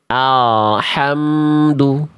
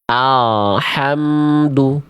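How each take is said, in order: The two takes are said the same way.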